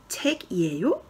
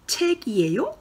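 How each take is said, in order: First: Said in the usual way. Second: 책이에요 with a high rising question tune. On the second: Shown as a demonstration. Teacher modelling the question to the class, rising. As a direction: lift the end of 책이에요 as a question. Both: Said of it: "Alors, ensuite".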